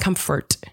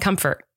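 First: The final T is hit hard and clearly. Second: The final T is barely pronounced. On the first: "you're really hitting the T at the end" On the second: "And I'm not"

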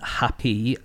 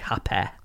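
First: It is said in the speaker's own accent. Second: It is said in a Manchester accent.

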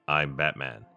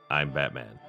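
The two takes are said the same way.

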